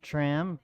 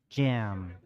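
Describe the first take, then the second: First: The name starts with a tr sound. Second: The name starts with a j sound. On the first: The speaker calls it wrong. "it's probably not Tram, just because it's spelled Tram" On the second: The speaker calls it right. "it's actually Jam"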